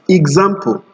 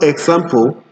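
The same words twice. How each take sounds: First: The X is sounded as GZ. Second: The X is sounded as KS. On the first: The speaker calls it right. "the X is usually for the Z sound" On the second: The speaker calls it wrong. "not example, like people pronounce it"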